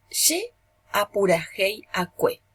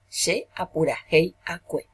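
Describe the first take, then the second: First: Ye apurajei acque spelt out slowly, each syllable clear; slow model pronunciation. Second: Said in the usual way. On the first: Shown as a demonstration. Teacher modelling the Guarani verb for the class, slow and clear. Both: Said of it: "Vamos a conjugar".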